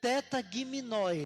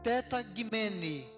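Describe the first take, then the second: First: It is read out as the transliteration spells it. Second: It is said with the Greek pronunciation. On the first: "a transliteração seria teta giminoi" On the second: "a forma de pronunciar corretamente é teta gimene"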